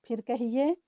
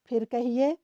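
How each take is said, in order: The two takes are said the same way.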